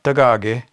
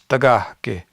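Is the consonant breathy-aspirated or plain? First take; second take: plain; aspirated. First: The consonant is said without a puff of air. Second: The consonant is said with a puff of air. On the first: The speaker calls it wrong. "It's not tagage" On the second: The speaker calls it right. "There's a in there"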